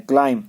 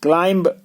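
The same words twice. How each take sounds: First: क्लाइम ending on M, no B; right form क्लाइम, B dropped; silent B. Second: क्लाइंब with a B released after the M; wrong form क्लाइंब, ending "m-b"; sounded B. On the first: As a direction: close क्लाइम on the M sound. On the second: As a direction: voice the final B in क्लाइंब. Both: Shown as a demonstration. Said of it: "बी को silent करना है".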